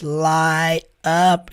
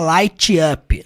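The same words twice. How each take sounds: First: The t in 'light' is dropped. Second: The t in 'light' is pronounced. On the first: The speaker calls it right. "At night when the stars light up" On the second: The speaker calls it wrong. "Ele não fala light up"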